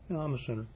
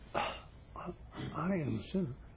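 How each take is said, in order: First: It is said in a detached, matter-of-fact way. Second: It is said in a deeply felt, emotional way. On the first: It is acknowledged only as a fact. "it can be purely intellectual" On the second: It is felt personally and deeply. "as opposed to"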